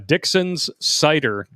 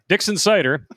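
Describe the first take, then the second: First: The phrase is said at a slower pace. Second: The phrase is said at a faster pace.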